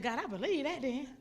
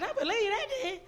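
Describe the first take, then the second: First: Said in the usual way. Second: High, loud burst of belief; elated, emphatic yes to God; excited acceptance. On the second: Retold or imitated. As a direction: exclaim it, pitch leaping up. Repeats reply, far more excited.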